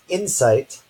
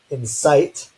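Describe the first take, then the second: First: The stress is on the first syllable. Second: The stress is on the second syllable. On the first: It is the noun meaning understanding. "the apostrophe just before the in syllable" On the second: It is the verb meaning to provoke. "gets the apostrophe just before the sight syllable"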